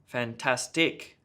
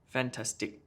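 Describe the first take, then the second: First: The stress is heavily exaggerated and overdone. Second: All syllables get equal stress. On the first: "too much stress" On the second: "let me just try to do it with even stress on each of the syllables"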